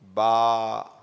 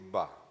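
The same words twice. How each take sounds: First: The vowel is stretched long. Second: The vowel is short. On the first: An alif follows the letter. "because of the alif" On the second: The letter has only a fatha. "This much"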